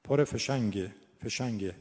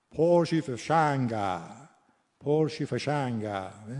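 First: "فشنگه" with a short, closed e ending; Persian pronunciation. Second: Slow Lur accent with open final vowels. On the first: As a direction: standard Persian "فشنگه", final e. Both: Shown as a demonstration.

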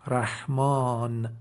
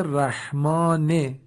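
First: رحمان drawn out, closed on a vowelless n; pausal silent ending. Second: رحمان slow, with a short "i/e" after the n; final kasra sounded. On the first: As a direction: end رحمان slowly on n, "rahmaan". (تلفظ کشیدهٔ رحمان با نون ساکن) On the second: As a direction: say رحمان as a drawn-out "rahmaane". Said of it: "آخرش کسره آمده". (تلفظ کشیدهٔ رحمان با کسرهٔ آخر) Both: Shown as a demonstration.

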